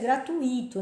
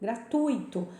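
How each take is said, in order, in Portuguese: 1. A tônica cai na sílaba I. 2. A tônica cai na sílaba U. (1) "Tem muita gente que pronuncia gratuito. Não" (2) "é no U"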